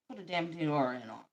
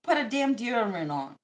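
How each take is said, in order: First: Muttered aside. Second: Said in the usual way. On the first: Shown as a demonstration. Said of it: "repeated quieter".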